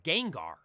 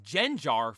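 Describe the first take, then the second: First: The middle consonant is a hard g sound. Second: The middle consonant is a soft j sound. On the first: The speaker calls it right. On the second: The speaker calls it wrong.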